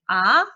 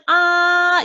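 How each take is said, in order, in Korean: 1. 음높이가 중간에서 높게 올라가요. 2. 음높이가 높고 평평하게 길게 유지돼요. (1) "삼에서부터 시작해서 오까지 올려주는 음" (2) "오에서 시작해서 오로 끝나서 높고 길게"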